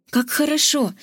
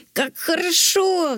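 First: Delighted cry; exclaiming. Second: Mock dragon roar, high and voiced apart. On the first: Acted. Zok exclaims, happy with his plaster. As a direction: Zok cries out happily. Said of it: "воскликнул Зок". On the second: Zok roars as he flies off with the princess. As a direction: roar it out with joy. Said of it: "взревел дракон".

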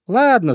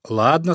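First: High, loud, cheery Ладно; light-hearted. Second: Ладно lightly raised, rising at the end; agreeable. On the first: Hare waves away talk of the fox, light-hearted. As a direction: toss off Ладно brightly, high and falling. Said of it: "засмеялся зайка Петя". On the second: Hare agrees to meet friends tomorrow, agreeable. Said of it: "согласился зайка Петя". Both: A narrator's reading.

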